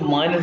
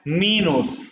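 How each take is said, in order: First: The first vowel sounds like 'eye'. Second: The first vowel sounds like 'ee'.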